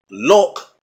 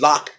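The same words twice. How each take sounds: First: "lock" with a rounded British o; British short rounded vowel in "lock"; British pronunciation. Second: "lock" with the speaker's open "ah"; ordinary American "lahk"; unrounded vowel in "lock"; plain American pronunciation. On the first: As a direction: say "lock" close to "look". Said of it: "a British accent". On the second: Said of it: "which is lock in a". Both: Shown as a demonstration.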